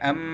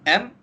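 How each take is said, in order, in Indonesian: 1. Huruf m ditahan dengan dengung sengau. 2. Huruf m ditutup dengan bersih tanpa dengung. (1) "kita tak baca dia am macam tu" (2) "Jelaskan huruf mim tersebut"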